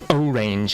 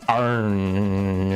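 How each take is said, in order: First: The word is said with two syllables. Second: The word is squeezed into one syllable. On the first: "I pronounce it orange" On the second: "orange actually just has one syllable, and it's like pronounced orange"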